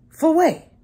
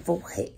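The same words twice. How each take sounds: First: "For what?" thrown out higher and louder, offended; indignant. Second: "For what?" said low and soft, half asleep; groggy quiet. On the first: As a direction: snap back "For what?" loudly, suddenly wide awake. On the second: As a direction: mumble "For what?" quietly into the phone, lower and softer. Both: Retold or imitated. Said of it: "Your voice just changed".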